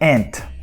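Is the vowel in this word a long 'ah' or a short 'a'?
short a. The vowel is a short flat 'a', like 'ant'. "But this is in the American English"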